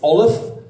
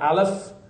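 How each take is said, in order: First: It is said with the Ashkenazi pronunciation. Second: It is said with a non-Ashkenazi pronunciation. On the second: "not Aleph"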